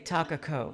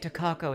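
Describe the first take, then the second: First: The name is said with a Japanese accent. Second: The name is said with an English accent. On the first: The speaker calls it right. "and say Takako" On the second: The speaker calls it wrong. "try not to say Takako ... it's just goddamn English pronunciation of words"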